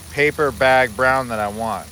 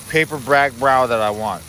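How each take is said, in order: First: Said in the usual way. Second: Tongue-tied slip on brag brow, said slowly; the stumbled take, paper brag brow blurred into one mumble; garbled. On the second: Real, not acted. Cook fumbling words over his pot, tongue-tied.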